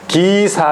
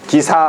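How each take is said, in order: First: The first vowel is drawn out long. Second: The first vowel is short and plain. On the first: The speaker calls it right. "길게 발음해야 돼" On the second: The speaker calls it wrong. "기사 하면 안 되고"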